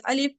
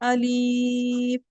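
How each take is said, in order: First: The vowel in alif is short, not drawn out. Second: The vowel in alif is drawn out long. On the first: The speaker calls it right. "इस तरह से हम पढ़ के निकल जाते" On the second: The speaker calls it wrong. "अलिफ को खींचते क्या हम ... ऐसा कभी खींचे नहीं ... गलत है वो"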